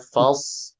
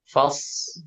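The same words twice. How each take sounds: First: The word ends with a clear l sound. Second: The word ends without any l sound. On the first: The speaker calls it right. "tambahkan L-nya" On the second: The speaker calls it wrong. "nggak ada L-nya"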